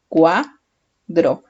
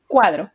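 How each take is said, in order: First: "Cuadro" broken into cua, pause, dro; split into syllables. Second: Said in the usual way. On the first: Shown as a demonstration. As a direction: sound out "Cuadro" one syllable at a time. ("Cuadro" dicho sílaba por sílaba, cua... dro) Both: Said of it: "Separamos en sílabas".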